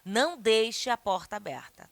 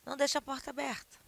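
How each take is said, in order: First: It is said with strong, emphatic exclamatory intonation. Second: It is said in a plain, flat statement tone. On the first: It is an exclamatory, forceful order. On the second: It is a plain request without exclamation.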